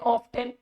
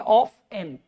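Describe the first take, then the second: First: The t sound in the middle is pronounced. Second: The t sound in the middle is silent. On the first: The speaker calls it wrong. "कुछ लोग इसे ना कहते हैं O F ऑफ, टी N टेन ऑफ टेन" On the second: The speaker calls it right. "टी को नहीं बोलना है, हम बोलेंगे ऑफ एन"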